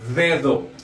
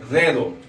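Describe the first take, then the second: The two takes are said the same way.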